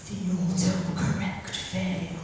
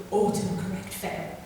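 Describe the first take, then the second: First: "the autocorrect fail" said slowly, each word weighted; slow title. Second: Said in the usual way. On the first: Shown as a demonstration. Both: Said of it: "I'll give you an example".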